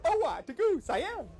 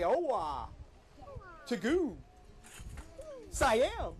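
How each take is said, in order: First: Magic words said quicker, run together; faster. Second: Slow magic words. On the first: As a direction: rattle "Oh-wah, to goo, Siam" off faster. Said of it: "Now say faster". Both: Shown as a demonstration.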